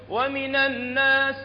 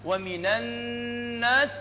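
First: ومن الناس said quickly, noon not held; skipped ghunna. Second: ومن الناس with the doubled noon held in a nasal hum; nasal ghunna. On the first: Teacher mocking the wrong reading without ghunna. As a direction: clip the noon of الناس short. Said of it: "لا تقول". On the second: Teacher showing the ghunna on the noon, held long. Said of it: "لا تنسون النون المشددة". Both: Shown as a demonstration.

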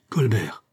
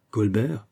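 First: The name falling steeply, with emotion; shaken by emotion. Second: "Colbert" repeated with a rising question; questioning echo. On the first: Gourville reporting whom he saw to Fouquet, shaken "Colbert". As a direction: exclaim "Colbert" in shock, sliding down. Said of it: "d'une voix altérée par l'émotion". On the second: Fouquet repeating the startling news, questioning "Colbert". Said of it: "répéta Fouquet". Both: A narrator's reading.

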